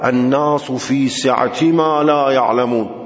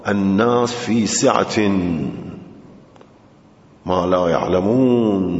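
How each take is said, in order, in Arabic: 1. تنتهي سعة بكسرة خفيفة -i، متصلةً بـ ما. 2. تنتهي سعة بالتنوين -in، منفصلةً عن ما. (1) "فهذا يكون قرينة على أن ما موصولة" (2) "فيكون قرينة على أن ما مصدرية زمانية"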